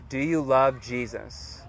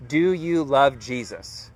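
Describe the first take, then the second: First: Slow, softer repeat. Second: Measured, deliberate asking, in a normal voice; slow, pointed question. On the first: Preacher repeats the question for reflection, slow and softened. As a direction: ask it slowly, easing off in volume. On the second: Preacher asks listeners to really think, slow and pointed. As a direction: draw each word out slowly. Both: Real, not acted.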